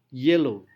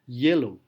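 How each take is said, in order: Both takes have the same delivery.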